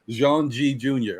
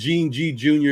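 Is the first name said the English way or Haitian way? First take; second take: Haitian; English. First: The first name has a French-style 'Jean' sound. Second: The first name sounds like English 'Gene'. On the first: The speaker calls it right. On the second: The speaker calls it wrong.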